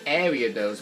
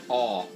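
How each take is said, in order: First: The name begins with a pronounced A sound. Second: The name begins without the A sound. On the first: The speaker calls it wrong. "I normally call it Ariados" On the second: The speaker calls it right. "you don't actually pronounce the A"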